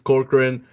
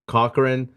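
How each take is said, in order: First: An r sound follows the first vowel. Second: No r sound follows the first vowel. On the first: The speaker calls it right. "So it's Corcoran" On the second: The speaker calls it wrong. "I thought I imagined the R, so I kept saying Cochran"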